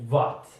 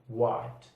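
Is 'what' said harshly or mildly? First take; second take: harsh; mild. First: The word starts with a hard, strong sound. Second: The word starts softly, lips not touching. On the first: The speaker calls it wrong. "be careful not to say what" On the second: The speaker calls it right. "say it more mildly"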